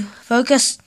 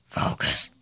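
First: Said in the usual way. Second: Soft unvoiced whisper. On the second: Shown as a demonstration. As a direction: breathe the word, no voice. Repeats word, second time whispered.

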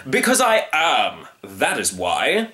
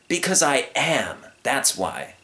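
First: Pompous, drawn-out retort; stubborn hunter. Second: Slow, emphatic answer, high then dropping; decided, drawn-out comeback; firm young lion. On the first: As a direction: lay it down with finality. Hunter answers firmly. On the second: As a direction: throw the retort back calmly. Young lion echoes hunter's answer. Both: Acted.

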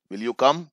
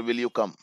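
First: "Will you come?" with the voice rising on "come"; rising question. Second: "Will you come?" with the voice falling on "come"; falling question. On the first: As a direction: ask gently, lifting "come" at the end. ("Will you come?" में "come" पर आवाज़ ऊपर उठाओ) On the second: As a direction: let "come" drop as if confirming. ("Will you come?" में "come" पर आवाज़ नीचे गिराओ) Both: Shown as a demonstration. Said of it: "ये टैग क्वेश्चन है यहाँ पर".

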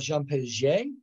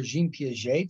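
First: Jean Piaget said "Zhahn Pay-zhay"; Jean Piaget with a nasal French "zhahn" and "pay" to start the surname; French-style pronunciation. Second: Jean Piaget said "Zheem Pee-ah-zhay"; Jean Piaget anglicized, "zheen pee-ah-zhay"; alternative pronunciation. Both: Shown as a demonstration. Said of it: "depending on how you pronounce it".

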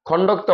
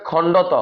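First: খণ্ডক্ত with an extra k, khon-dok-to; common mispronunciation. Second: খণ্ডত as khon-do-to, no k before t; careful খণ্ডত; correct letter name. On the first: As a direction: say খণ্ডক্ত with a k before the t. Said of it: "বলে". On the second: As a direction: say খণ্ডত in open syllables. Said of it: "সঠিক উচ্চারণ হচ্ছে যে". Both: Shown as a demonstration.

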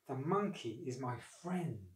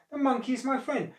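First: Slow, soft brooding; troubled thought. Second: High-pitched dismayed objection; appalled protest. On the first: Crocodile privately regretting his plan, troubled thought. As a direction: think it aloud, softly and slowly. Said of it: "he thought". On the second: Crocodile defending his friend to his wife, appalled. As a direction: protest in shock, voice shooting up. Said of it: "quite appalled". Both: A narrator's reading.

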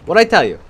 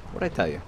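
First: Loud, high triumphant yell; bragging shout after a kill; gloating shout. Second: Said in the usual way. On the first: Real, not acted. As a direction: crow it at the top of your lungs. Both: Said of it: "Told you".

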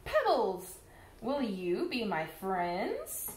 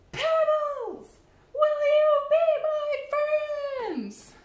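First: Said in the usual way. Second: High, loud call to the pebbles; calling out louder the second time; louder ask. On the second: Acted. Fish asking pebbles again, loudly. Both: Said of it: "I say".

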